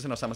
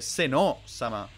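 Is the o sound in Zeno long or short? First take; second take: short; long. First: The o in Zeno is short. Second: The o in Zeno is drawn out long. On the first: The speaker calls it wrong. "yo creo que no se dice Seno Sama" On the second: The speaker calls it right. "Se dice Seno Sama. Con doble O"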